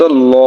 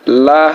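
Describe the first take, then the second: First: "ল" drawn out with a rounded o-like vowel; full-mouthed, dark "ল"; heavy lam. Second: "লা" with an open a vowel; thin, unrounded "লা"; light lam. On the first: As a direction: say "ল" as a heavy "law". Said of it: "আল্লাহ শব্দ ল হয়". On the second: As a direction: say "লা" as a light "laa". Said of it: "জের থাকার কারণে". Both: Shown as a demonstration.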